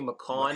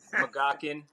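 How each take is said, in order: First: The G sound is silent in the name. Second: A G sound is heard in the name. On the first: The speaker calls it right. "It's actually McCawn. G's actually kind of silent" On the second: The speaker calls it wrong. "I've heard so many different pronunciations"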